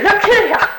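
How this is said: It is said as a scolding reprimand.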